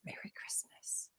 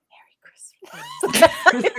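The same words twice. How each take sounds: First: Slow, very soft creepy whisper; weird whisper. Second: Slow, drawn-out stage whisper; creepy whisper. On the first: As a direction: whisper it eerily, barely audible. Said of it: "weirdly whispers it in the middle of the song". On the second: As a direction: whisper it weirdly, stretched out and forceful. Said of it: "I whispered". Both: Retold or imitated.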